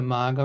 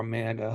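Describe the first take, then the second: First: "maga" said one way, likely with a broad "ah"; alternative pronunciation. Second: "maga" said the other way, likely with a short "a"; alternative pronunciation. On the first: Psychic unsure how to say the slogan, first pronunciation of "maga". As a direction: say "maga" as MAH-guh. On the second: Psychic offering another option, second pronunciation of "maga". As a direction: say "maga" as MAG-uh. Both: Shown as a demonstration. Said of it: "however you say it".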